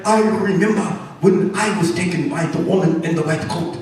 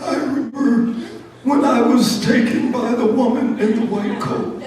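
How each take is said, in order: First: Put-on measured old-sage mouse voice; lightly voiced learned old mouse; old Mouse Einstein. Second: Put-on high-pitched old mouse recounting horrors; old Mouse Johnson. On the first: Old mouse addressing the others about the lab, measured recollection. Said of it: "old Mouse Einstein would get up". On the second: Old mouse telling the others horrible stories, high-voiced dread. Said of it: "Like old Mouse Johnson".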